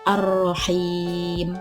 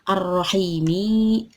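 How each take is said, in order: First: The word ends on a bare consonant. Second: The word ends with a short i vowel. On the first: The reading stops at this word. "jadi dibacanya ar-rahim, disukun" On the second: The reading continues without a stop. "asal katanya yaitu ar-rahimi, harkatnya jadi di kasroh"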